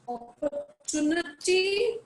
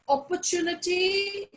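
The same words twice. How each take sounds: First: It is said with an American pronunciation. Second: It is said with a British pronunciation. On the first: "again American" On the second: "again British"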